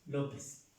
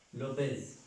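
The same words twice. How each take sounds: The two takes are said the same way.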